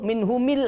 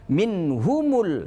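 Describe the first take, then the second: First: The mim is followed by an i vowel. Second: The mim is followed by a u vowel. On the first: The speaker calls it wrong. "tidak boleh" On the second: The speaker calls it right. "dengan dhammah"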